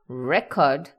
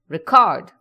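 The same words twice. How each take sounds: First: The stress is on the first syllable. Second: The stress is on the second syllable. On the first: It names a piece of recorded music. "I'm talking about music" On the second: It means to save something. "it means to save something"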